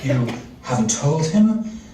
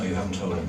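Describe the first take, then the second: First: The pitch rises at the end. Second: The pitch falls at the end. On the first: The speaker is worried and asking. The speaker calls it right. "I think it needs to be an upward inflection" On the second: The speaker is scolding someone foolish. The speaker calls it wrong. "not a, oh, you haven't told him, you silly girl"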